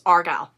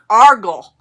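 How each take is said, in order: First: It is said without a heavy Southern drawl. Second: It is said with a heavy Southern drawl. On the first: The speaker calls it right. "It is Argyle" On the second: The speaker calls it wrong. "I'm not that Southern"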